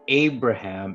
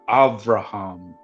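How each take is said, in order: First: The middle consonant is a B sound. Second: The middle consonant is a V sound. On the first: "instead of Abraham" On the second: "the B's are V"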